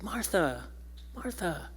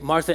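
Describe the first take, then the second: First: The name is said softly, comforting and compassionate. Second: The name is said sharply, like a scolding.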